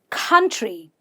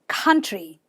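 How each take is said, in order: Both takes have the same delivery.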